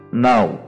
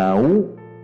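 First: The vowel glide is short, quick and soft. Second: The vowel glide is drawn out and separated. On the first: The speaker calls it right. "Dibaca nau" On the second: The speaker calls it wrong. "Bukan nau"

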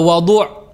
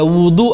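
First: The first vowel is an 'a' sound. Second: The first vowel is an 'u' sound. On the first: It names the water used for purification. "dibaca wadu menggunakan fathah" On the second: It names the act of washing for purification. "dibaca wudu pakai dhammah"

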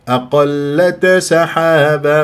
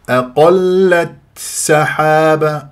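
First: The t is released with a bouncing echo. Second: The t carries a heavy, exaggerated breathy release. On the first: "ما أقلقل" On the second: "أبالغ في الهمس"

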